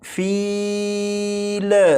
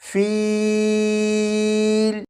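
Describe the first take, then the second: First: The final L ends with a bouncing echo. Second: The voice stops cleanly at the final L. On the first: The speaker calls it wrong. "इस लाम को इस तरह से ना पढ़िएगा जैसे फील" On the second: The speaker calls it right. "जब आप लाम पर पहुंचे तो आवाज़ ख़त्म कर दीजिएगा"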